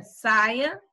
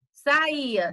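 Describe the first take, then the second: First: Saia as SAI-a, stressed at the start. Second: Saía as sa-Í-a; stress on Í. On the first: Teacher contrasts lookalike words, stressing SAI in saia. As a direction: hit the first syllable of saia. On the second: Teacher contrasts lookalike words, stressing Í in Saía. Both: Shown as a demonstration. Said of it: "uma única escrita".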